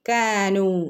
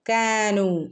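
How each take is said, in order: Both takes have the same delivery.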